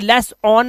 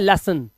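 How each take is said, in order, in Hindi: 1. दूसरे अक्षर में 'on' स्वर है। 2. दूसरे अक्षर में हल्का 'un' स्वर है। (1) "लेस ऑन नहीं" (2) "अन ना कि ऑन"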